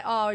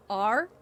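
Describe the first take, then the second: First: R as an open "ah"; non-rhotic R. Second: R with the r-sound pronounced; rhotic R. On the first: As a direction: say R with no r-sound at the end. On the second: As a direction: sound the final r in R, American-style. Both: Shown as a demonstration. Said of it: "I have a non-rhotic R".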